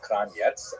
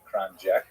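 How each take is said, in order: First: The name ends with a ts sound. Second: The name ends with a k sound. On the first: This is an alternative pronunciation. "also pronounced Kranjets" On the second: This is the form accepted in America. "in America, they tolerate Kranjek"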